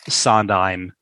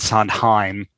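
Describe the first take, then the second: First: The H in the middle is not pronounced. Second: The H in the middle is clearly breathed.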